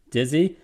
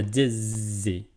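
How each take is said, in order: First: Said in the usual way. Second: "dizzy" drawn out slowly as two beats, DIZ-ZY; slow, syllable-by-syllable "dizzy"; word broken up. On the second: Shown as a demonstration. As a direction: split "dizzy" between its syllables, lingering on the first. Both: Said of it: "It's broken up".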